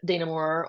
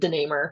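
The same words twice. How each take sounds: First: The name is said with a French-Belgian pronunciation. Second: The name is said with an American pronunciation. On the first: This is the original pronunciation of the name. "it's very French-Belgian" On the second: This is how the family now says the name. "the name's been Americanized. My family pronounces it DeNamur"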